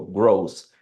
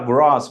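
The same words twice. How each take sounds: First: The O vowel is said closed. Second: The O vowel is said open. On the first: The speaker calls it right. "é fechado esse O" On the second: The speaker calls it wrong. "muita gente fala gross"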